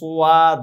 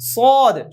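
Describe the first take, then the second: First: A w-glide comes before the vowel. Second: The vowel follows directly with no glide. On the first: The speaker calls it wrong. "এটা সোয়াদ হবে না, সোয়াদ না" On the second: The speaker calls it right. "সদ সরাসরি সহজ"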